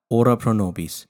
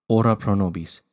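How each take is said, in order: Both takes have the same delivery.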